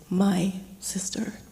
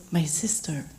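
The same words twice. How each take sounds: First: "My" drawn out slowly, then a pause before "sister"; stress on MY. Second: Said in the usual way. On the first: Retold or imitated. Uncle claiming Joyce as his own, stress on "My". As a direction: dwell on "My", then set "sister" apart. Recalls answer, stressing the bond.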